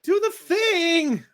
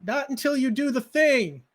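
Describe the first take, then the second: First: Put-on high, slow, drawn-out child's demand; a small girl calling from the bushes, demanding; little girl insisting. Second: Put-on little girl yelling. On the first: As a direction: stretch it out, higher and louder, insisting. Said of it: "she calls back". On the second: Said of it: "she yells".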